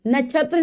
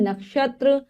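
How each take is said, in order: First: "नक्षत्र" said as nachhatra; mispronounced word. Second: "नक्षत्र" with a clear KSH; correct pronunciation. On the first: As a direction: say "नक्षत्र" wrongly with CHH for KSH. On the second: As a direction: say nak-shatra for "नक्षत्र". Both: Shown as a demonstration. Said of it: "नक्षत्र नहीं".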